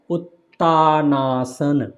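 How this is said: The two parts are run together.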